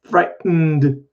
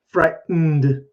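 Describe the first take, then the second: No difference in how they are said.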